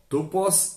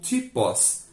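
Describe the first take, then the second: First: The word is said in Erasmian Greek pronunciation. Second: The word is said in modern Greek pronunciation. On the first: "na pronúncia erasmiana" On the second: "na pronúncia do grego moderno"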